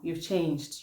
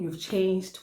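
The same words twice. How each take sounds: First: It is said in a disappointed, reproachful tone. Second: It is said in a warm, admiring tone. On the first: The change is resented. "out of that disappointment" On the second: The change is praised. "if I was saying them to appreciate you, my tone and everything else will be different"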